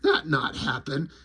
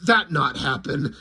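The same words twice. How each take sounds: First: Low quiet alien denial; deadpan alien. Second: Low flat-out alien denial; deadpan alien. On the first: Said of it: "And he's like". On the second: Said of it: "the lizard just goes". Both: Retold or imitated. Lizard rejecting Popo's tale, low deadpan. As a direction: lizard dismissing him, low and blunt.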